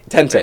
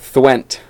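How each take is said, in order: First: The name is said as 'Tenty'. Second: The name is not said as 'Tenty'. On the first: The speaker calls it right. "That's how you pronounce it" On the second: The speaker calls it wrong. "that's the most common one"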